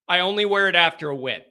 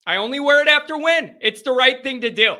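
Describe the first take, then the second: First: Said in the usual way. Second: Higher, quick and emphatic; insistent repeat. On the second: Real, not acted. Host defending his chain rule to viewer Eric, insistent. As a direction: raise the pitch and insist on it briskly.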